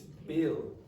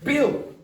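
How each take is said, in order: First: The b is released without a puff of air. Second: The b is released with a strong puff of air. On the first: The speaker calls it right. "It's Bill" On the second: The speaker calls it wrong. "you could aspirate that. You could go Bill"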